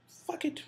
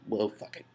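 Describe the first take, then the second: First: A higher, whispered "Fuck it." said as a shrug; defeated whisper; whispered give-up. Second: Said in the usual way. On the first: Retold or imitated. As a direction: whisper it as if letting everything go. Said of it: "part of me just wants to be like". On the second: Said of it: "example of just be like".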